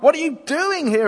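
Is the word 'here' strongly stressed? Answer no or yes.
no. The word 'here' is not specially stressed. It is a rebuke. The speaker calls it wrong. "I take it it's not a rebuke. It's not"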